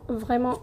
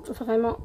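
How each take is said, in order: Both takes have the same delivery.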